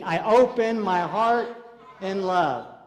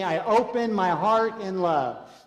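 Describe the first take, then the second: First: It is said emphatically, with conviction. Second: It is said plainly, without extra force.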